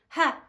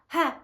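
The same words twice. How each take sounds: First: The sound is pushed from the throat. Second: The sound is pushed from the throat.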